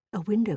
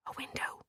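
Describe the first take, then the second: First: Said in the usual way. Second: Very soft, breath-only whisper; hushed, secretive whisper. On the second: A narrator's reading. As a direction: whisper the discovery. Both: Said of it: "he whispered".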